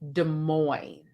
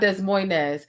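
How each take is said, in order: First: The S sounds in the name are silent. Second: The S sounds in the name are pronounced. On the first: The speaker calls it right. "it's Des Moines" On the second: The speaker calls it wrong. "it's not Des Moines ... I'm seeing two S's in it, and that's what I thought it was"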